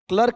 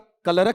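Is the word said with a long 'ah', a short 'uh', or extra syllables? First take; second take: short uh; extra syllables. First: It has one syllable with a short 'uh' vowel. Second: It is split into extra syllables with added vowels. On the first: "क्लर्क या कलरक नहीं होता है" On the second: "कलरक नहीं"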